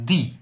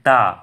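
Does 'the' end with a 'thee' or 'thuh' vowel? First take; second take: thee; thuh. First: The word ends in an 'ee' vowel. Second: The word ends in a short 'uh' vowel. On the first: This is the strong form of the word. "আর strong ফর্মের ক্ষেত্রে দি এর উচ্চারণ দি" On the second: This is the weak form of the word. "উইক ফর্মের ক্ষেত্রে এই দি এর উচ্চারণ দা"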